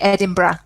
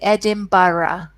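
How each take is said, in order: First: It is said the Scottish way. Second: It is said the English way.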